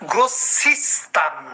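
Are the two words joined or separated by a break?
joined. The two words run together without a break. The speaker calls it right. "এখান থেকে লাভ দিয়ে এখানে চলে আসতে হবে"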